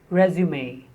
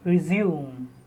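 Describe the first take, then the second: First: It is pronounced the way the noun is. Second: It is pronounced the way the verb is. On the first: It means a curriculum vitae. "as a noun, as a synonym of curriculum vitae" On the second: It means to continue. "To continue, resume as a verb"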